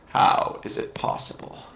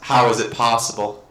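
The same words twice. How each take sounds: First: It is said in a put-on monster voice. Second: It is said in the speaker's normal voice.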